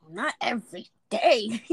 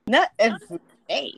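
First: Said in the usual way. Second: Not louder, rising on the repeat; stress on not. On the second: Real, not acted. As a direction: hit the word Not and let it climb.

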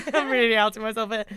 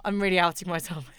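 First: Laughing through it, faster. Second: Said in the usual way. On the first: Real, not acted. Confessing her fangirl past, she repeats it laughing. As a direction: giggle it out, embarrassed.

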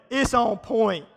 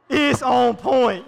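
First: Said in the usual way. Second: Louder and slow, laughing through it's on point; slow laughing shout. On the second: Shown as a demonstration.

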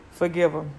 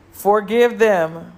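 First: Said in the usual way. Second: Slow, loud and drawn out; a final loud, slow plea to forgive; emphatic plea. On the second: Real, not acted. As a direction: lean hard into each word of Forgive them.

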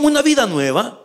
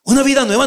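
First: Said in the usual way. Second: Una vida nueva said higher and louder, landing on una; emphatic repeat. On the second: Shown as a demonstration. Preacher driving the point home to the church, emphatic.

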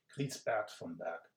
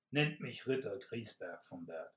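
First: "Griesbert" said slowly and deliberately, stressing the -bert; corrected name. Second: Said in the usual way. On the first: Acted. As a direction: correct the slip carefully. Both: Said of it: "Äh, ich meine".

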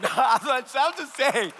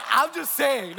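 First: Repeated through a laugh, slowly. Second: Said in the usual way. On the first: Real, not acted. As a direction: say it again chuckling, drawn out.

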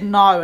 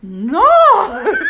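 First: Put-on Polish accent. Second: Much higher, loud shocked cry with a laugh; loud, laughing gasp of disbelief. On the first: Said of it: "in her Polish accent". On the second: Retold or imitated. Shocked reply to mother-in-law.

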